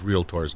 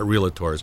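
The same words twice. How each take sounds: First: The word is said with two syllables. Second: The word is said with an extra middle syllable. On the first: The speaker calls it right. "the correct pronunciation is realtors" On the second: The speaker calls it wrong. "not realtors"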